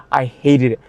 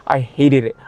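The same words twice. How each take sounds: The two takes are said the same way.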